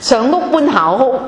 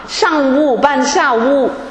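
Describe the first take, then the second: First: It is spoken in Cantonese pronunciation. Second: It is spoken in Mandarin pronunciation. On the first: The speaker calls it right. "我用广东话告诉你们" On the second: The speaker calls it wrong. "这个说普通话不好听"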